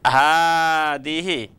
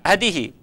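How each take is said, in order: First: The first vowel is long. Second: The first vowel is short. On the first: The speaker calls it right. "tapi hadihi ... haknya panjang" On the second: The speaker calls it wrong. "saya tidak membaca hadihi"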